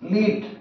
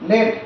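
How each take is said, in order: First: The vowel is long, like in 'seed'. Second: The vowel is short, like in 'bed'. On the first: It means to guide or head. "উচ্চারণটা লিড" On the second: It names a metal. "লেট উচ্চারণ যখন হবে তাহলে লেট is a metal"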